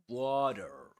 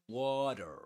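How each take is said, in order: First: It is said with an American accent. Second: It is said with an American accent.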